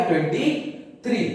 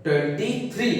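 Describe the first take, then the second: First: twenty, a clear pause, then three; pause between words. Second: Said in the usual way. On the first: Shown as a demonstration. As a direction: split twenty and three with a gap, like spelling it out for kids. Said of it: "क्या हो गया?". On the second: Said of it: "ये एक साथ पढ़ी जाएगी".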